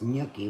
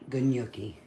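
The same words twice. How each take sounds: First: The word starts without any G sound. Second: The word starts with a hard G sound. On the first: The speaker calls it right. "but it's gnocchi without the um, G, the G silent" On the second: The speaker calls it wrong. "a lot of people um, pronounce it gnocchi"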